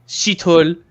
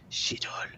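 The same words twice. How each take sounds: First: It is said aloud in a normal voice. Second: It is said in a whisper.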